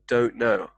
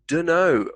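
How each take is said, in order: First: The two words are said separately and in full. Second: The two words blend into one short reduced word. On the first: "from don't know" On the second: "Dunno, from don't know"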